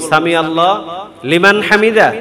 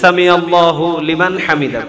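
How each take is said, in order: First: Allah runs straight into liman with no 'hu'. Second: Allah ends in 'hu', linked as 'hu-liman'. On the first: "সামি আল্লাহ লিমান হামিদা নাকি" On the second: "হুলিমান"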